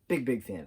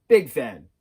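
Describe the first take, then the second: First: Said in the usual way. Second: A loud burst of fandom; big loud declaration; excited. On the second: Real, not acted. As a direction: belt it out like a proud fan. Emphatic fan declaration, then repeated.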